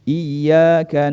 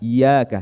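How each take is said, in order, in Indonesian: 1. Bunyi y dobel dan ditahan. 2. Bunyi y tunggal dan pendek.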